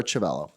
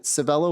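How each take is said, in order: First: Chivello begun with a CH sound; CH pronunciation. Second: Civello begun with an S sound; soft C pronunciation. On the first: Chair checking a witness's name, Chivello with CH. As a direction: say Chivello as "chuh-VELL-oh". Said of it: "Is it Civello or Chivello?". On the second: Chair checking a witness's name, Civello with S. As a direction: say Civello as "suh-VELL-oh". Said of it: "I hope I said that correctly". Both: Shown as a demonstration.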